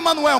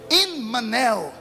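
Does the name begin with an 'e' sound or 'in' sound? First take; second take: e; in. First: The name begins with an 'e' sound. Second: The name begins with an 'in' sound. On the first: The speaker calls it wrong. "Não é Emanuel" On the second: The speaker calls it right. "In, tracinho, men, tracinho, el"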